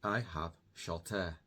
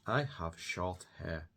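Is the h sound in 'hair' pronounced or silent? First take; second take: silent; pronounced. First: The t links to the vowel and h is silent. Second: The words are separate and the h is pronounced.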